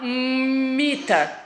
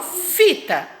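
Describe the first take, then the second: First: Mita said slowly with an M instead of F; wrong first sound. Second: Fita with a clear F start; right first sound. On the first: Teacher showing the wrong word. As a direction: say mita, starting with M. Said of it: "eu não falo mita". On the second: Teacher showing the right word. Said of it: "eu falo fita". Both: Shown as a demonstration.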